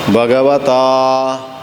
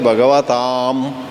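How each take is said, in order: First: The word ends on an open vowel, mouth open. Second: The word ends with a closed m sound. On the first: The speaker calls it right. "Second time should not close the mouth" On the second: The speaker calls it wrong. "That is wrong"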